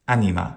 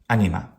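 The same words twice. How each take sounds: The two takes are said the same way.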